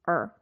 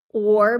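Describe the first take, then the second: First: The word is said weakly as a short 'er'. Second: The word is said fully with a clear vowel.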